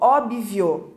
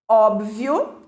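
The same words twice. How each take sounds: First: An extra i sound follows the b. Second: The b is followed directly by v. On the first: The speaker calls it wrong. "erradamente pronunciado como óbvio, colocando um I" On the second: The speaker calls it right. "B mudo"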